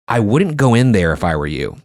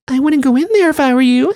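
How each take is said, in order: First: It is said in his normal voice. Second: It is said in a creepy little girl voice.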